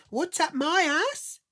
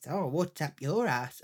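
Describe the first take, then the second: First: MY ASS thrown back high, loud and drawn out; indignant echo. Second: Said in the usual way. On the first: Retold or imitated. Wife echoing her husband's question, in high slow indignation. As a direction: shriek the question back, slowly, outraged.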